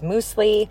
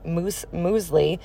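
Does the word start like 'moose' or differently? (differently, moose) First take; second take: moose; differently. First: The word starts with a sound like moose. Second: The word starts differently, not like moose. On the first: The speaker calls it wrong. "I was mispronouncing it as muesli" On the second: The speaker calls it right. "she had something called muesli"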